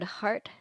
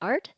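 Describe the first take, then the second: First: The word begins with an h sound. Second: The word begins without an h sound.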